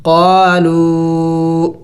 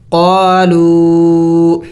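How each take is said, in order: First: قالو, واو stretched well beyond one alif; recited demo of قالو; long madd vowel. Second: قالو with the واو held extra long; teacher chanting قالو slowly; long madd vowel. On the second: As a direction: stretch the و in قالو past one alif. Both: Shown as a demonstration. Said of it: "زیادہ لمبا کیا جائے گا".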